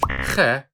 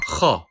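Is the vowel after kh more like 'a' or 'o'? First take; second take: a; o. First: The vowel after kh sounds like a light 'a'. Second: The vowel after kh sounds like a heavy 'o'. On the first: The speaker calls it wrong. "It is never read as kh" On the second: The speaker calls it right. "baby A on top of Khalid's horse makes an O sound"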